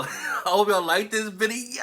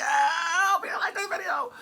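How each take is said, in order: First: Said in the usual way. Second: High playful squeal. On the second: Pretend.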